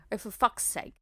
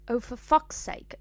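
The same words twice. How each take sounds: First: Weary, less formal groan; groaned exasperation. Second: Formal British exasperation, pitched higher; over-proper British accent on the curse. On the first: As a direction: groan the curse like a fed-up bogan. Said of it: "Lupin groans". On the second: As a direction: swear like a very proper British schoolgirl. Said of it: "made that so British and formal". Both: A narrator's reading.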